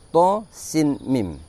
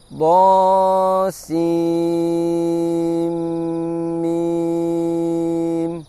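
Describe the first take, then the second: First: The n sound is kept before the m. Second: The n sound merges into the following m. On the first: "Mestinya berbunyi do sin mim" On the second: "dileburkan apabila setelahnya terdapat huruf mim"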